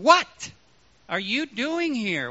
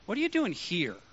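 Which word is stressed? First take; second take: what; here. First: The stress falls on the word what. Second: The stress falls on the word here. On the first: The asker wants to know what is going on. "What is going on, Elijah?" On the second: The place is unexpected for this person. "I wouldn't expect to find you here"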